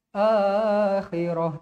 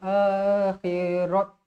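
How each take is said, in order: First: The word ends with a soft h sound. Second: The word ends with a t sound. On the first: The speaker calls it right. "dia akan jadi huruf ha" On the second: The speaker calls it wrong. "Tak nak akhirat"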